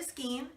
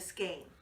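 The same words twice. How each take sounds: First: The vowel sounds like 'ee'. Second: The vowel sounds like 'ay'. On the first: "Personally, I call it a skein" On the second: "a lot of people insist on calling it a skein"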